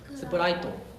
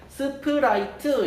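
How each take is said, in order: First: The word ends with an 'o' vowel. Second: The word ends with an 'eu' vowel. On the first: "일본어는 스프라이트를 어떻게 발음하죠?" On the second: "한국어에 들어갔을 때 ... 이런 식으로 발음을 하게 됩니다"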